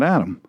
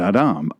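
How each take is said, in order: First: The name has the usual American English pronunciation. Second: The name has its original, non-American pronunciation. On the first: The speaker calls it wrong. "not Adam, ... Adam is our Americanized version, our Western version" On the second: The speaker calls it right. "but Adam"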